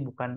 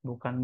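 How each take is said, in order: Both takes have the same delivery.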